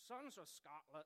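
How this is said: It is said in a put-on Scottish-style accent. "I can't do a Scottish accent, but I'm going to try"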